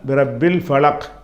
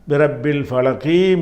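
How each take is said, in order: First: The last word ends on a bare consonant. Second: The last word ends with a short vowel. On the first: The reading stops at this point. "நிறுத்திட்டிங்கன்னு சொன்னால் பி ரப்பில் ஃபலக் என்று நிப்பாட்டி கொள்ளணும்" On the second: The reading continues into the next verse. "ஒரே மூச்சில் அடுத்த வ வசனத்தையும் சேர்த்து படிக்க நினச்சிங்கன்னா"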